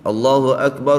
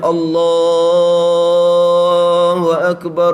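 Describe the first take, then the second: First: The lengthened vowel is held only briefly. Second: The lengthened vowel is held very long. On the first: "Tu pendek lagi tu" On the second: "Kalau panjang betulnya"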